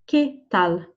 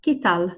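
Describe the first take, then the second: First: "¿Qué tal?" in two separated words; slow, careful "¿Qué tal?" for learners; word-by-word model. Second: Said in the usual way. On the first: Shown as a demonstration. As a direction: say "Qué", brief gap, then "tal". Teacher models phrase word by word. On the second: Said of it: "to use".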